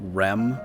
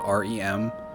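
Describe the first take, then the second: First: It is said as one word, rem. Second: It is said as three separate letters. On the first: "You say that like a word" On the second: "not R E M?"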